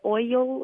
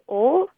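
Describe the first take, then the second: First: The vowel glides from o toward i. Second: The vowel is a single sound without a glide. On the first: This is how her father says it. "he says like" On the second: This is how the caller herself says it. "I say"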